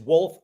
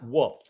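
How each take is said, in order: First: The L sound is clearly pronounced. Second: The L sound is left silent. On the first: The speaker calls it right. "W O L F E is Wolf" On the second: The speaker calls it wrong. "not Wolf. It's not a silent L"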